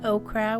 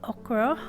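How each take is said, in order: First: It is said with the usual American pronunciation. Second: It is said with the Belizean pronunciation. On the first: "we don't say okra" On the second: "how we say it in Belize, we say okra"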